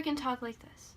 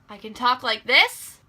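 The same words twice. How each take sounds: First: It is said quietly. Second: It is said loudly.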